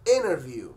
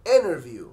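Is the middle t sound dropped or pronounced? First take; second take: dropped; dropped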